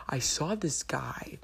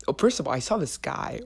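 First: Slow conspiratorial whisper. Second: Said in the usual way. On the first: Acted. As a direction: whisper it slowly like juicy gossip. Secretive gossip about a guy.

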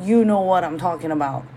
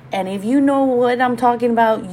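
First: Said in the usual way. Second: And if you know, said higher with a rising knowing lilt; knowing setup line. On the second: Shown as a demonstration. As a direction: lead in with a raised, teasing "you".

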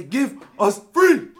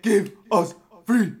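First: High, slow, very loud cry of give us free; defiant shout. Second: High, slow, loud cry in English; defiant shout again. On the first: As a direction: bellow the demand in accent. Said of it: "They touch me. I say". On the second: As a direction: shout it proudly once he learned English. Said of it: "I learn English and I say". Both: Acted.

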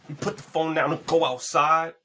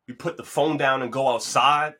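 First: We put the phone down and go outside, every word pushed higher and louder, go stressed hardest; mad emphasis. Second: Said in the usual way. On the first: Shown as a demonstration. Vlogger repeating his advice to listeners, with mad emphasis. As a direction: hammer We put the phone down and go outside with big weight. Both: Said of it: "I said it with mad emphasis".

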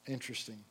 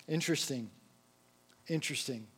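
First: Interesting fades away to almost nothing; fading whisper. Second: Soft musing. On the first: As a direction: let Interesting die out into silence. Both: Shown as a demonstration. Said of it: "repeated, each one quieter".

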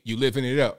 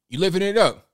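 First: Said in the usual way. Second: Higher, louder mocking "You living it up"; "You living it up" sung out higher and louder; mocking emphasis. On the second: Real, not acted. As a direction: lift "up" high, jeering. Repeats jab at AOC.

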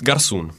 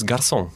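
First: "garçon" as gar-SOON, dialect style; northern dialect word. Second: "garçon" as gar-SON, French style; French "garçon", stressed at the end; French pronunciation. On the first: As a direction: say "garçon" with a long oo in the last syllable. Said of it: "In my dialect, it's garçon". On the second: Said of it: "In French, it's garçon". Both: Shown as a demonstration.

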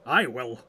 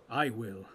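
First: Loud, eager volunteering; eager and emphatic; eagerly. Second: Understated, heavy-hearted assent; subdued, reluctant pledge; heavily. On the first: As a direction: jump in with a loud pledge. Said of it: "said Gimli eagerly". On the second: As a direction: agree as if weighed down. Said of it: "said Aragorn heavily". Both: A narrator's reading.

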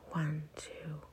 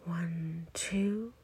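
First: Soft, low-key falling count; exhale count. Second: Soft count, lifting on the last number; inhale count. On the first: Guide counting listeners through a breath out, soft falling count. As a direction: count softly down as the breath empties. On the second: Guide counting listeners through a breath in, soft rising count. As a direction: count gently up as the breath fills. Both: Shown as a demonstration.

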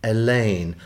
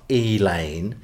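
First: "Elaine" with short first vowel, uh-LANE; corrective pronunciation. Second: "Elaine" with long first vowel, EE-lane; mimicked mispronunciation. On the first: Retold or imitated. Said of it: "like a street, a road". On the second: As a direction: mockingly stretch "Elaine" into slow EE-laine. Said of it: "not Elaine, Elaine".

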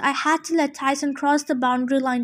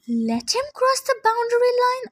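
First: Said in the usual way. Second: High, disbelieving question with stress on cross; incredulous question. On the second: A narrator's reading. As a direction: repeat it in shock. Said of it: "I asked".

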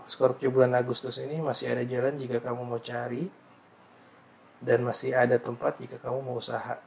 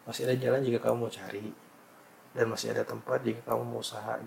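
First: Formal horoscope reading; reading aloud. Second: Said in the usual way. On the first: Shown as a demonstration. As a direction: read the forecast out formally. (membacakan ramalan) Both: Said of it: "nih maksudnya".

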